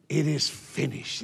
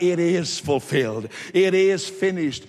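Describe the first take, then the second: First: Low, soft pronouncement; subdued and solemn; quiet solemn quote. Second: Mild, emphatic retold shout; raised declaration, a touch of a shout. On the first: Acted. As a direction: say it softly and lower, with finality. First, quiet take of Jesus' words. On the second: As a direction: proclaim it firmly without really yelling. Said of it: "And he shouted".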